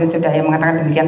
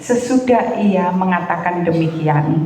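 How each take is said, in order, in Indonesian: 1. Frasa itu dibaca cepat tanpa jeda. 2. Frasa itu dibaca pelan dan santai. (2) "bacanya saya kasih contoh dulu"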